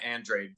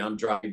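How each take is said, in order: First: The name is said with American English pronunciation. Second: The name is said with Spanish pronunciation. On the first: This is how the fighter's own camp says it. "they say uh, Andrade" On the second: This is how the name ought to sound in its original culture. "the name just sounds to me as though it ought to be Andrade"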